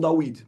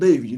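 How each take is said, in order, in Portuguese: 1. A consoante do meio é som de w. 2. A consoante do meio é som de v. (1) "não Dawid" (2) "Falam David"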